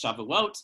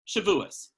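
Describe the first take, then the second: First: The word ends with a t sound. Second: The word ends with an s sound. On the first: This is the modern Hebrew form. "if you're looking at the modern Hebrew pronunciation"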